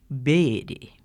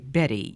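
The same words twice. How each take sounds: First: The name is said in a Georgia accent. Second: The name is said in a general American accent. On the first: "if you're from Georgia, you say Betty" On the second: "you don't say Betty"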